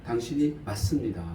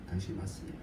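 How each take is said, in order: First: Said in the usual way. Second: Much softer, murmured like a prayer; quiet prayerful repeat. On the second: Shown as a demonstration. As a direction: say 당신이 맞습니다 again, far softer, as a humble prayer. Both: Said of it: "우리도 그렇게 기도해야 되지 않을까?".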